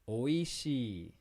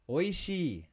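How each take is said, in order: First: The word is said slowly and carefully. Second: The word is said at normal speed.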